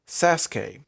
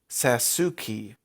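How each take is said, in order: First: The name has its Japanese pronunciation. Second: The name has an anglicized pronunciation. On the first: The speaker calls it right. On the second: The speaker calls it wrong.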